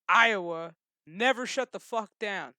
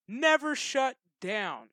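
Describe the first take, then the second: First: Said in the usual way. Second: Never stretched slow and punched; stress on Never. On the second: Real, not acted. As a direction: slowly hammer Never, louder.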